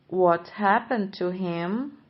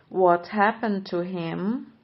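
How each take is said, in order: No difference in how they are said.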